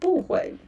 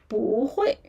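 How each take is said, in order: First: The first syllable has a falling tone. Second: The first syllable has a rising tone. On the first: The speaker calls it wrong. "instead of" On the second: The speaker calls it right. "rising tone"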